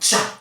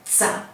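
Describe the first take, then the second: First: The t is said like ch. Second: The t is said like ts. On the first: "on dit pas tsa ou tcha" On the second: "on dit pas tsa ou tcha"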